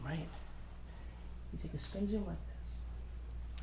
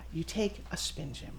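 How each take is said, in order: First: Slow hushed whisper, much softer; slow mysterious whisper for the trick; stage whisper. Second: Said in the usual way. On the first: Shown as a demonstration. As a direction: draw it out like a magician's secret. Magic trick demo whispered.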